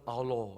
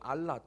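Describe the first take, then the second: First: The word ends with an 'oh' vowel. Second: The word ends with an 'ah' vowel. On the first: This is how the Muslim workers say it. "원래 발음은 알로 이렇게 얘기하거든요" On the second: This is how the Bible writes it. "인도네시아 성경을 보면 알라"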